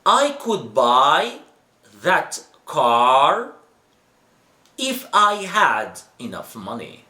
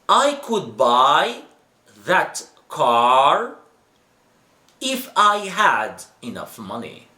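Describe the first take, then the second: First: Each word is said fully and carefully. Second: The same.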